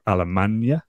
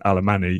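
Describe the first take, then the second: First: The name ends in a 'ny' sound, no vowel. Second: The name ends with a separate 'ee' vowel. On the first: The speaker calls it right. "imagine saying Espanol, but don't say the O" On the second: The speaker calls it wrong. "it also isn't Alemany either"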